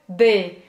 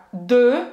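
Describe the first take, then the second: First: D said with a smiling spread mouth, as Portuguese "dê"; wrong D with a smiling mouth; wrong spread vowel. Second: De said with rounded lips, mouth shaped for O while saying E, as "dø"; rounded French de. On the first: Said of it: "e se eu falar errado". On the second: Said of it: "que é o correto". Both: Shown as a demonstration.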